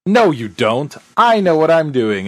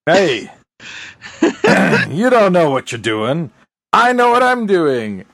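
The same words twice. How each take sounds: First: A touch of firm contradiction; lightly acted stubborn comeback; Buffy. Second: High, insistent mock protest; military Magoo bluster. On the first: Host replaying the classic retort to the Colonel, mildly insistent. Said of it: "And Buffy with the classic". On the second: Host replaying the Colonel's argument, blustering mock insistence. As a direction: argue back in hammed-up indignation. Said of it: "good old, uh, military Mc-, Magoo".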